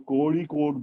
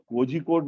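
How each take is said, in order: First: The middle consonant is a flapped r-like sound. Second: The middle consonant is a zh-like sound. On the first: The speaker calls it right. "उसका सही उच्चारण कोड़ीकोड है" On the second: The speaker calls it wrong. "वो कोझिकोड नहीं बोलें"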